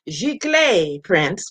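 G. Clay is said with a French accent. The speaker calls it right. "with my French accent"

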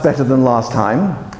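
It is said in a flat, unenthusiastic tone. The progress is not worth much praise. The speaker calls it wrong. "That's not very motivating"

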